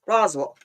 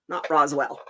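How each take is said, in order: First: The last syllable sounds like 'wool'. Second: The last syllable sounds like 'well'. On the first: This is how local people say it. "People from there call it Roswell, like it's sheep wool" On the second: This is how outsiders say it.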